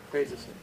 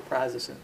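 First: Prazosin with first syllable like "praise"; long A in Prazosin. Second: Prazosin with the flat A of "jazz"; short A in prazosin. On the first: Lecturer offers students the drug name, Prazosin said PRAY-zuh-sin. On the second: Lecturer allows another pronunciation, prazosin said PRAZ-uh-sin. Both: Shown as a demonstration. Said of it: "however you want to pronounce that".

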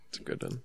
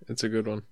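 First: Mock whisper, much softer; whispered repeat. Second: Said in the usual way. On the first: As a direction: breathe it again as a sly aside. Repeats the line as an aside.

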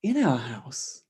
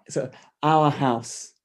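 First: In stressed with a rising question tune. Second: Our drawn out and stressed, falling, slow; slow reading that puts the weight on our. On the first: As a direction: put the weight on In and lift the end. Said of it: "can you emphasize that in our house". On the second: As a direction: lean hard on our and say it slowly. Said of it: "to say our". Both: Shown as a demonstration.

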